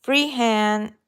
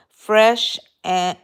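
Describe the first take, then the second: First: "free hand" read slowly and carefully; corrected "free hand". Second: "Fresh" misread loudly instead of free; stumbling on "Fresh"; misread name "Fresh". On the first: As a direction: get "free hand" right this time. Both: Real, not acted. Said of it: "no, free".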